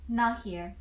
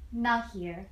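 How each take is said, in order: Both takes have the same delivery.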